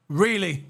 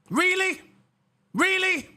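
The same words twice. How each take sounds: First: Said in the usual way. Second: High, incredulous scoff; mock disbelief. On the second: Real, not acted. Streamer scoffing at the driver in high mock disbelief. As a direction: act amazed he would dare complain.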